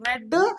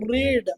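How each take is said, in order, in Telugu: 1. అచ్చు పొట్టిగా ఉంది, 'bed' తో ప్రాస. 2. అచ్చు పొడవుగా ఉంది, 'seed' తో ప్రాస. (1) "ప్రొనౌన్సియేషన్ రెడ్ అంటేనేమో పాస్ట్" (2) "రీడ్ అంటేనేమో ప్రజెంట్ టెన్స్"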